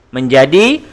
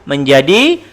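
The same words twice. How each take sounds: The two takes are said the same way.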